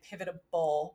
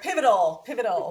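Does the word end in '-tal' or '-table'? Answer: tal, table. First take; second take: table; tal. First: The word has an extra 'b' sound: pivotable. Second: The word has no 'b' sound: pivotal. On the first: The speaker calls it wrong. "I keep saying that word wrong. I keep saying like pivotable" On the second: The speaker calls it right. "Say it right. Pivotal, no B in there"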